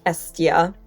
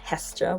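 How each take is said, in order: First: The name begins directly with a vowel sound. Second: The name begins with an h sound. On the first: This is the form matching the ancient name. "Estia would be pronounced Estia" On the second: This is the form the speaker usually uses. "not Hestia, which is what I tend to say"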